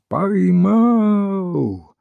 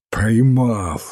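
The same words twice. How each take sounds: First: High, long drawn-out call; high ringing cry of capture; triumphant cry. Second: Lightly acted out-of-breath repeat; understated, winded announcement of a catch; puffing repeat. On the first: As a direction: call it out across a yard, stretching the vowel. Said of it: "огласил дворик криком". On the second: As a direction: say it puffing, without raising the voice. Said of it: "отдуваясь". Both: A narrator's reading.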